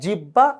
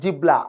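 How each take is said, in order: First: The middle is said with a doubled b sound. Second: The middle is said with a b then l sound. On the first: "not জিব্বা" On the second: "not জিবলা"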